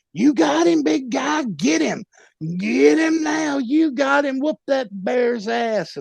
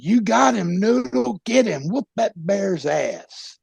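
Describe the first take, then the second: First: Much higher, frantic yelled encouragement; hyped-up cheering. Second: Cheering him on. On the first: Corner man yelling at his fighter, much higher frantic cheer. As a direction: scream him on like a wild corner man. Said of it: "Noodle, is just hyping it up". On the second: Friend in the corner cheering Noodle on, higher yell. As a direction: egg your buddy on. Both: Retold or imitated.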